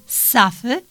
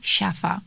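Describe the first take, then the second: First: The word begins with a hard 'sz' sound. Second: The word begins with a soft 'ś' sound. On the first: The speaker calls it right. "zamiast jakby safy" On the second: The speaker calls it wrong. "mówi siafa"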